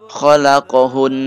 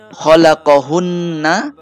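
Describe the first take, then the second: First: The word ends on a held n sound. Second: The word ends with a short a vowel.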